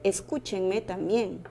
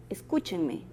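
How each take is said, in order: First: "Escúchenme" slowed, weight on CÚ; teacher slowly names "Escúchenme" as esdrújula, hitting CÚ; slow stress on CÚ. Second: Said in the usual way. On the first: Shown as a demonstration. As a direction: drag out "Escúchenme", landing on CÚ.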